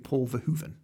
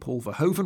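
First: The name is said with Dutch-style sounds. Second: The name is said with English-style sounds. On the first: The speaker calls it right. "it should be Paul Verhoeven" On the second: The speaker calls it wrong. "we're pronouncing Paul Verhoeven wrong"

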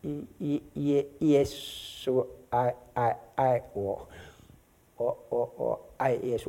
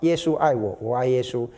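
First: It is said haltingly, with Billy's repeated syllables. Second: It is said smoothly, without repeated syllables.

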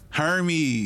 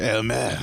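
First: The name sounds anglicized, like 'her-meez'. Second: The name sounds French-style, like 'air-mez'. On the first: This is how buyers of fake goods say the name. The speaker calls it wrong. "the people that buy the fake stuff, they just call it Hermes" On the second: This is the proper way to say the brand name. The speaker calls it right. "That's how you say it"

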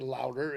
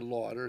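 First: The name sounds like the word 'louder'. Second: The name does not sound like 'louder'. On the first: Some people say the name this way. "some say Louder" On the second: The speaker says the name this way. "and I say Lauder"

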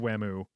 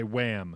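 First: The name ends with an added oo vowel. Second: The name ends on the m sound. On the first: This is the Japanese-style version of the name. "they put it the extra vowel sound on there" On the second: This is how an English speaker would say it. "if we were to do it, we would say Wham"

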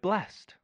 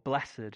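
First: The word is said in a plain, everyday way. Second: The word is said in a solemn, spiritual-sounding way.

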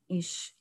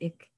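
First: It is said in a Frankfurt dialect. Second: It is said in a Berlin dialect. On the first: "Those from Frankfurt on Main" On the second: "The Berliners pronounce it ich"

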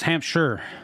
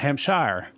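First: The ending is reduced to a short 'sher'. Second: The ending is said as a full 'shire'. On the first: The speaker calls it right. "in pronunciation, it's Hampshire" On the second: The speaker calls it wrong. "S-H-I-R-E should be Shire"

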